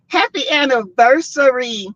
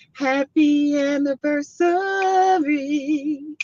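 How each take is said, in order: First: Said in the usual way. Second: Slow, high, stretched happy anniversary; sing-song the words slowly, much higher; lingering celebratory greeting; drawn-out wish. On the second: Real, not acted.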